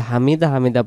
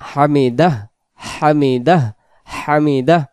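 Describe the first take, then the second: First: হামিদা with the final হ dropped; wrong pronunciation. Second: হামিদাহ with a clear breathy হ at the end; final h sounded. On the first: Teacher showing the wrong way, final হ missing. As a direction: say হামিদা with no h at the end. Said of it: "এই হ অক্ষরটা কি আদায় হচ্ছে না". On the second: Teacher correcting learners, voicing the final হ. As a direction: let the h of হামিদাহ be heard. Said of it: "সহ যদি বলতে চাই হামিদাহ". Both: Shown as a demonstration.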